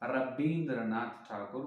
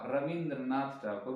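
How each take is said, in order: First: The name is said with a b sound. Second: The name is said with a v sound. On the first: This is how people in Odisha and West Bengal say it. "वा के बिना बा को बुलाते हैं" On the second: This is how people in Andhra, Maharashtra and Telangana say it. "इस side के लोग रविंद्र वा रविंद्रनाथ ठाकुर बुलाते हैं"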